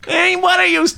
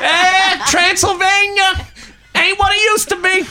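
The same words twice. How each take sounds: First: High, slightly less over the top mock whine; Bill Burr voice again. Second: Bill Burr voice. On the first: Repeating the joke line, high mock Bill Burr whine. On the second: Pretend. Cohost teased for doing Bill Burr, very high mock whine. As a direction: whine it like a grumpy comic. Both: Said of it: "you've just committed to being Bill Burr".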